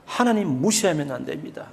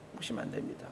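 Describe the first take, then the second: First: Said in the usual way. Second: Whispered echo. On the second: Shown as a demonstration. Pastor echoing his warning to the congregation in a whisper. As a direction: repeat 무시하면 안 됩니다 as a breathless whisper.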